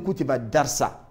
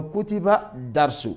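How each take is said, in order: First: "darsa" ending in an a sound instead of u; wrong case ending. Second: Said in the usual way. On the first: Shown as a demonstration. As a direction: say "darsa" with a final -a, as the incorrect form. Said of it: "on ne peut pas dire". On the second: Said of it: "on dit tout simplement".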